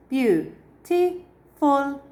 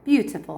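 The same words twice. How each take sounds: First: Beautiful broken into three slow syllables, BEAU-TI-FUL, higher and louder; syllables spelled out slowly. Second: Said in the usual way. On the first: Shown as a demonstration. Teacher counting syllables for the class, slow and drawn out. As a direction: stretch Beautiful out syllable by syllable so each one can be counted. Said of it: "Yes, it's three syllables". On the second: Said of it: "How many syllables is it?".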